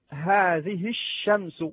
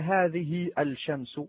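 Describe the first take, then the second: First: Neither alif nor lam is heard; the sh is doubled. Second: The lam of the article is pronounced aloud. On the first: The speaker calls it right. "هل نطقت ألفا أو لاما؟ لا" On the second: The speaker calls it wrong. "ولا هذه الشمس"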